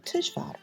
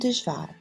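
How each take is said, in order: First: The word begins with a voiceless T sound. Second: The word begins with a voiced D sound. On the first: This is the Western Armenian form. "T in Western Armenian" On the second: This is the Eastern Armenian form. "the letter D in Eastern Armenian"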